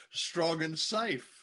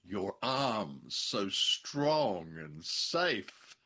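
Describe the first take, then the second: First: Drawn-out strong and safe; slow quote. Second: Very slow drawn-out strong and safe; slow breathy quote. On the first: Husband savoring the wife's line, slow and drawn out. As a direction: stretch it out slowly, savoring it. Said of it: "highly unlikely to say". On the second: Husband quoting the leading lady, slow and lingering. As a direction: linger on every word. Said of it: "leading lady gasps". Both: Retold or imitated.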